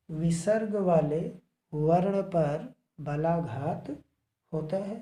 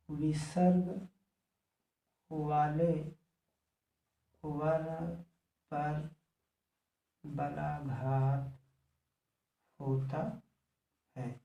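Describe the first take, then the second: First: Said in the usual way. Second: One word at a time, long pauses; slow, isolated words; slow dictation. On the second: Real, not acted. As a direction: dictate word by word as you write.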